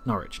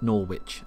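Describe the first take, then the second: First: The name is said differently from its spelling. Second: The name is said just as it is spelled. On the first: The speaker calls it right. "Norwich is Norwich" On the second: The speaker calls it wrong. "not Norwich as it's spelt"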